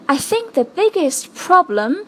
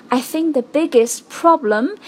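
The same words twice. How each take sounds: The two takes are said the same way.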